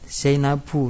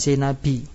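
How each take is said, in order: First: The word ends with a plain 'u' vowel. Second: The word ends with an 'i' vowel. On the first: The speaker calls it right. "Zainabu dibacanya" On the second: The speaker calls it wrong. "bukan Zainabi"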